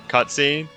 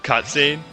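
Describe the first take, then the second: No difference in how they are said.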